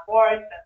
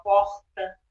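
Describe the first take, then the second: First: Porta with a tapped, São Paulo r. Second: Porta with a throaty Rio r, like porhta. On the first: Host contrasting São Paulo porta with her Rio one. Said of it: "De, de São Paulo". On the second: Host showing how she says porta as a Rio native. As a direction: say porta the carioca way, r scraped in the throat. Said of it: "eu falo porta". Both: Shown as a demonstration.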